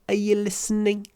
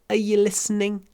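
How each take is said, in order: Both takes have the same delivery.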